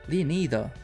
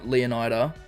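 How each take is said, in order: First: The name is said in a Spanish style. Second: The name is said in a plain English style. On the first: The speaker calls it wrong. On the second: The speaker calls it right.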